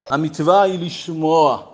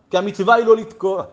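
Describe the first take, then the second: First: Slow, falling emphasis on "לשמוע"; stress on לשמוע. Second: "לא לתקוע" stressed as the rejected option; emphatic negation. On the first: Teacher giving the true commandment, slow stress on "לשמוע". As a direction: land slowly and firmly on "לשמוע". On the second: Teacher telling the blower his duty, stressing "לא לתקוע". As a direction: press on "לא", then drop on "לתקוע". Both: Shown as a demonstration. Contrasts blowing with hearing.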